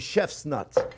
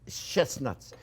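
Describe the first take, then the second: First: The middle sounds like 'chef's', with an f sound. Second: The middle is said carefully with a clear 'st' sound. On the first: The speaker calls it wrong. "they thought I was saying chef's nuts" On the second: The speaker calls it right. "I have to say that very carefully"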